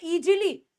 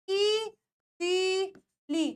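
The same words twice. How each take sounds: First: ईजीली with a "j" sound, "ee-jee-lee"; hard "j" in the middle of ईजीली; common mispronunciation. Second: ईजीली drawn out as "eee-zeee-leee"; very slow ईजीली in three separate syllables; all sounds long. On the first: Retold or imitated. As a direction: imitate the mistaken "eejily" for ईजीली. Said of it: "एस को हमेशा जी पढ़ लेते हैं". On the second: Shown as a demonstration. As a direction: stretch every vowel of ईजीली, with z for j. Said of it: "इसमें सब कुछ बड़ा है".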